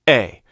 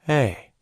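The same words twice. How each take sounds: First: The vowel starts with a sudden, abrupt attack. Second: The vowel starts with a soft, gradual attack. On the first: "That's a hard onset" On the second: "Soft would be this"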